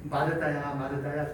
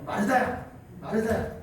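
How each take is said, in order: First: Calling a name gently and lower; tender call. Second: Calling a name sharply, pitch rising at the end; scolding call. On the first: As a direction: say her name with pity and love. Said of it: "이렇게 읽지 않고". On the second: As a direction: call her name like a rebuke. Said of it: "제가 이렇게 읽지 않았죠?". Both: Shown as a demonstration.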